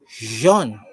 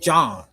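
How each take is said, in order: First: The name is said the French way. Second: The name is said like English 'John'. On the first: This is how the name is meant to be said. "my name is pronounced Jean" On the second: This is how the speaker says the name. "I pronounce it John"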